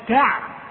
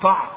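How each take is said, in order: First: The consonant is light and thin. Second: The consonant is heavy and thickened. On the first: The speaker calls it right. "التاء والعين ترقق" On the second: The speaker calls it wrong. "فما تقولش"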